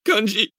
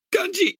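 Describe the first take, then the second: First: Screaming. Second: A very high anguished scream of the name. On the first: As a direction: cry Kanji again, loud and raw. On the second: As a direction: shriek Kanji high in grief. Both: A narrator's reading. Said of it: "hurlait-elle".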